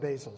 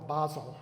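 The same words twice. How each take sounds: First: The word has an American English pronunciation. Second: The word has a British English pronunciation.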